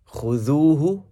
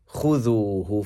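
First: The stress is on the second syllable. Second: The stress is on the first syllable. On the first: "that's the second syllable" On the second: "that would be the first"

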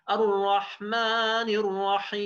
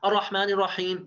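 First: It is said slowly with drawn-out sounds. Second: It is said quickly without drawn-out sounds.

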